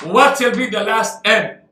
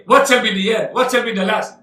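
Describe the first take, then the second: First: Weight on both "last" and "end" together; double emphasis. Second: Said in the usual way. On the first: Shown as a demonstration. Preacher stressing the verse's wording to the congregation, emphatic. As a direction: lean on "last end" as one final phrase. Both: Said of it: "Double emphasis".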